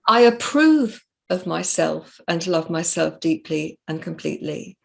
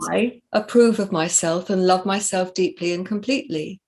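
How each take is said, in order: First: The word "approve" carries the main emphasis. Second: The word "I" carries the main emphasis.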